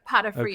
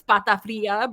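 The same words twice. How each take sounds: First: It is said with a plain English-style pronunciation. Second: It is said with a fuller Spanish-style pronunciation. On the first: It is simplified so people can say it. "to make it easy for people" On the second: It is the original way of saying it. "It's of course patafria"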